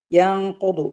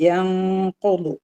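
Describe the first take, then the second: First: Said in the usual way. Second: യൻഖുദു with a long nasal hum before ഖു, very slow; ikhfa demo. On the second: Shown as a demonstration. Teacher showing ikhfa to students, slow nasal chant. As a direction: hold the hidden nasal in യൻഖുദു, chanted slowly. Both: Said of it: "ഇഖ്ഫ ചെയ്യുക".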